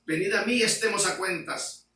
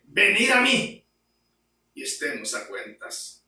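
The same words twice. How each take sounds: First: Said in the usual way. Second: Proclaimed quote. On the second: Acted. Quoting God's call.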